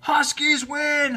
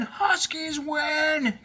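First: High, slow, drawn-out cheer; victory cheer. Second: High, very slow shouted Huskies win; stretched shout. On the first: The team celebrating their win, joyful cheer. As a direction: cheer it like you just won. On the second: The team shouting the win a second time, stretched shout. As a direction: hold the win out long and shouted. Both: A narrator's reading. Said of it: "cheered the team".

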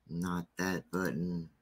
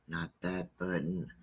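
Both takes have the same delivery.

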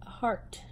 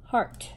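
First: "A heart" whispered, much softer. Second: Said in the usual way. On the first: Shown as a demonstration. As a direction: breathe "A heart" like a naughty secret. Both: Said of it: "I didn't say a bad word".

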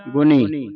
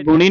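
First: ਗੁਣੀ said as "guni", plain dental n. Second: ਗੁਣੀ with curled-tongue n; wrong retroflex n. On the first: Teacher gives correct reading, ਗੁਣੀ with dental n. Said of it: "ਨੰਨੇ ਦੀ ਆਵਾਜ਼ ਉਚਾਰਨ ਹੋਵੇ". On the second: Teacher shows the misreading, ਗੁਣੀ with retroflex n. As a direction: curl the tongue back on the n of ਗੁਣੀ. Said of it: "ਇੱਥੇ ਗੁਣੀ ਨਹੀਂ ਪੜ੍ਹ ਜਾਣਾ". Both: Shown as a demonstration.

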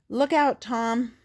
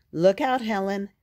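First: Higher and louder alarmed yell; urgent warning yell. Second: Warning shout. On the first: Spot yelling at Tom from the runaway sled, high and loud. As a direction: scream the warning as you hurtle down. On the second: Warning from a speeding sled. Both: A narrator's reading.

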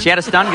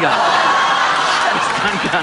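First: Said in the usual way. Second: Slow, laughing through the words. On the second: Real, not acted. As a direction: wheeze it out laughing.

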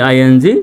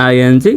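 The two takes are said the same way.

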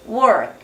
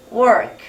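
First: Just hint at the k in work; barely audible final k. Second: Said in the usual way. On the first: Shown as a demonstration. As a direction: work with the k nearly swallowed. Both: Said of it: "자기만 알게 work".

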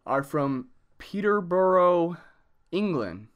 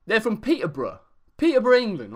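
First: Said in the usual way. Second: A put-on English accent from Peterborough, higher and louder; fake British accent. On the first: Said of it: "Oh, sorry". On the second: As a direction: say it like a cheeky bloke from England. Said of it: "I'm gonna do the rest of the video in this accent".

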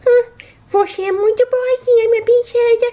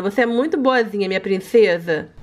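First: High baby-voiced repeat; high pet echo. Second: Said in the usual way. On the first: Shown as a demonstration. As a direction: echo mommy's words in a high sweet pet voice. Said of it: "pet echoes mom". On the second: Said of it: "repeated in pet voice".

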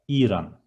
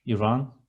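First: İran with a long first E, ee-ran; long first syllable. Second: İran said the English way, ih-rahn; a short English first syllable in İran. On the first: Teacher models İran with a long first E. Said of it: "The first syllable, E, should be a bit long". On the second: Teacher contrasting English İran with Turkish. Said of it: "It is not Iran". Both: Shown as a demonstration.

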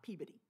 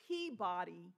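First: "Peabody" run together as PEA-buh-dee; local town pronunciation. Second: "Peabody" with a full "body", pea-BODY; outsider's spelled-out "Peabody"; mispronounced town name. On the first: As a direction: swallow the middle of "Peabody" to a quick buh. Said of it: "everybody else knew how to pronounce". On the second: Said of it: "I would always trip over it and say". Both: Shown as a demonstration.

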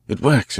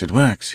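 First: Cried out high with triumph; excited cry. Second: Repeated excited cry. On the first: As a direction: burst out at the first success. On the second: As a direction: confirm the triumph once more. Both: Acted. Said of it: "he cried".

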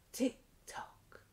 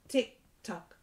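First: Whispered "tick tock", soft and breathy. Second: Said in the usual way. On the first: Acted. Teacher whispering "tick tock" to toddlers in the song.

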